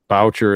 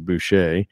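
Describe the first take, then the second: First: The name is said with an American pronunciation. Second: The name is said with a French Canadian pronunciation. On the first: This is how the family says it now. "how we say it in the Americanized version" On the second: This is how the name was originally said. "the French Canadian way"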